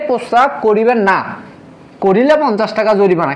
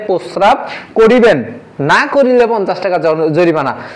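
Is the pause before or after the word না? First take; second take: after; before. First: The pause comes after না. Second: The pause comes before না.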